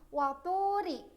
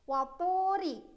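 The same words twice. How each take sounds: No difference in how they are said.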